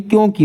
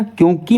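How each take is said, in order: First: क्योंकि with a short final i; correct pronunciation. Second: क्योंकि with a long final ee; wrong pronunciation. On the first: Teacher correcting students, short-i ending on क्योंकि. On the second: Teacher showing the mistake, long-ee ending on क्योंकि. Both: Shown as a demonstration. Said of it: "छोटी की मात्रा".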